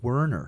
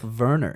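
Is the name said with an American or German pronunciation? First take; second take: American; German. First: The name is said with an American pronunciation. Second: The name is said with a German pronunciation. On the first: This is how he says his own name. "his American pronunciations are almost perfect" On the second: This is not how he says his own name. "He doesn't even call himself Werner"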